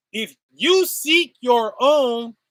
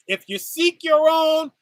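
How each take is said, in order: First: Slow, with each word of "If you seek your own" weighted; slowed-down, louder restatement; slow emphatic repeat. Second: Said in the usual way. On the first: Shown as a demonstration. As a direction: drag the line out slowly to make it land.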